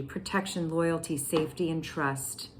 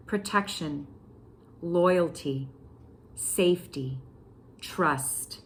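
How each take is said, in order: First: Said in the usual way. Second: "Protection, loyalty, safety, trust" each word set apart by a pause; word-by-word emphasis. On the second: Shown as a demonstration. Repeating the card for listeners, each of "Protection, loyalty, safety, trust" standing alone. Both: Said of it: "I'm gonna say that again".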